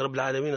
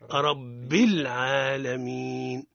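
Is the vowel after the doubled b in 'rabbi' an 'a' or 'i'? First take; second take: a; i. First: The b is followed by an a-like vowel. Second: The b is light, doubled and followed by i. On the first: The speaker calls it wrong. "صحيح ولا غلط، خطأ" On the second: The speaker calls it right. "الصواب ربي مرقق الباء ومشددة ومكسورة"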